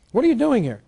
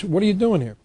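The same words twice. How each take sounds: First: Higher indignant challenge. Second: Indignant challenge. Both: Retold or imitated. Taxpayer confronting police at door.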